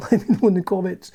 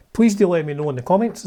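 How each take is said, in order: First: Laughing, ironic repeat of "Let me know in the comments"; mock YouTuber plea. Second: Said in the usual way. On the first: Shown as a demonstration. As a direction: send up the engagement plea with a chuckle. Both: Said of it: "As I say, it's all about engagement".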